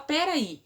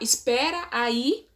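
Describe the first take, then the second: First: The phrase is shortened, losing its first syllable. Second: The phrase is said in full, with every syllable. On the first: "aí a pessoa fala peraí" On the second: "ao invés de falar espera aí"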